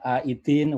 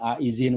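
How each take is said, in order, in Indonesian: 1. Konsonan tengahnya bunyi d biasa. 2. Konsonan tengahnya bunyi dz. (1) "Ini pakai dal, bukan pakai D Z, pakai D"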